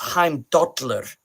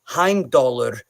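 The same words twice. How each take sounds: First: The double L has a lateral lisp sound. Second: The double L is a plain L sound. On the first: This is the modern Icelandic way. "now in modern Icelandic" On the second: This is the older, Old Norse way. "wasn't really present in Old Norse"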